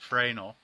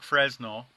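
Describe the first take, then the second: First: It is pronounced differently from its spelling. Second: It is pronounced just as it is spelled. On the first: The speaker calls it right. "it's actually pronounced Fresnel" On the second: The speaker calls it wrong. "It looks like Fresnel"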